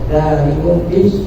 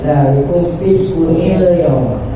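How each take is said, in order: First: The final word is cut short with a stop. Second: The final word links smoothly into the next word. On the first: The reader pauses at this point. "kalau mau diwakofkan, di sini ada kok wakof" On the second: The reading continues without stopping. "Kalau mau diwasal itu"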